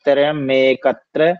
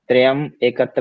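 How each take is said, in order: First: The two words are run together as one. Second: The two words are said separately. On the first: The speaker calls it right. "मैं के ऊपर ही एक ही मात्रा" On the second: The speaker calls it wrong. "त्रयम एकत्र नहीं बोलेगा"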